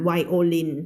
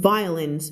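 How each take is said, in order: First: "violin" as wai-o-lin, every syllable sounded evenly; Thai-style reading. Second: "violence" run together as VAI-lens, stress in front; correct English reading. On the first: Teacher showing the Thai reading to avoid, "violin" as wai-o-lin. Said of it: "อันนั้นภาษาไทย". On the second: Teacher modelling English sound, "violence" as VAI-lens. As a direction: say "violence" squeezed into two syllables. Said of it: "violence ไม่อ่าน violin". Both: Shown as a demonstration.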